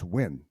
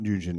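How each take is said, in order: First: It is said as one syllable, like win. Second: It is said as two syllables, like noo-gin. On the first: The speaker calls it right. "it's Win" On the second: The speaker calls it wrong. "it's not Nugin"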